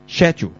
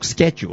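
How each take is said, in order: First: The word starts with a ch sound. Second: The word starts with a k sound. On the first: "照读翻C-H 音schedule" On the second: "K 音咧就系读schedule"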